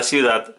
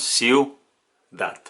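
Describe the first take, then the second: First: Said in the usual way. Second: Ciudad said slowly as ciu-dad, syllable by syllable; syllables split apart. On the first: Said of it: "separamos ciudad". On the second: Shown as a demonstration. Teacher showing students how ciudad separates, slow and spaced. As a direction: break ciudad into its syllables with a small gap. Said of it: "para separar la palabra ciudad".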